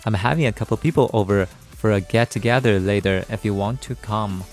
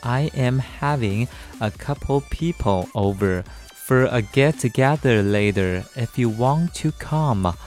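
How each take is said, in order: First: It is said at normal speed. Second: It is said slowly.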